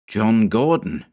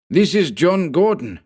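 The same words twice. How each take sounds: First: Said in the usual way. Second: High, hissing fanatic's voice; hissed. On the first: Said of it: "narrator repeats the name plainly". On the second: Acted. Henchman hissing a warning over the fallen man. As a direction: hiss it like a cornered henchman. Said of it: "he hissed".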